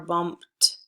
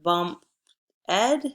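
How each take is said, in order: First: The ending is a voiceless t sound. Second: The ending is a separate syllable, ed. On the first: The speaker calls it right. "it's bumped" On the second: The speaker calls it wrong.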